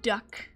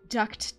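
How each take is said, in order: First: The final T sound is dropped entirely. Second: The final T sound is clearly pronounced. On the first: "I say duck" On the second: "if you want to pronoun pronounce the T"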